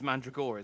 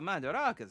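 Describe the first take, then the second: First: The name is said as Man-dra-go-ras. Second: The name is said as Man-da-ra-gas. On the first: The speaker calls it right. "It's Mandragoras" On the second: The speaker calls it wrong. "I'm not even pronouncing that right"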